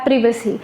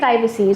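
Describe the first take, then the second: First: The word has a British pronunciation. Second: The word has a non-British pronunciation. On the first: "British people say data privacy" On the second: "we say privacy"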